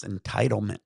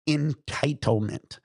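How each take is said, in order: First: Said in the usual way. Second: "Entitlement" stretched out at half speed; emphatic key word. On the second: Real, not acted. Speaker hammers the key word of recent years, "Entitlement" slow and emphatic. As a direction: spell out "Entitlement" slowly, each syllable weighted. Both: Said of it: "here is the key word".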